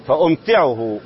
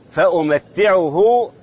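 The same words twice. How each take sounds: First: فأمتعه with a still m and a single light t, fa-umti'uhu; lightened reading. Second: فأمتعه with a vowel after m and a doubled t, fa-umatti'uhu; doubled reading. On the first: Sheikh showing a reading heard in the recitation, lightened taa. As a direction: say فأمتعه as fa-um-ti-'u-hu, no doubled t. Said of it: "تخفيف التاء مع إسكان الميم". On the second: Sheikh showing the other reading, doubled taa. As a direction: say فأمتعه slowly as fa-u-mat-ti-'u-hu. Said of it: "بالتشديد". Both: Shown as a demonstration.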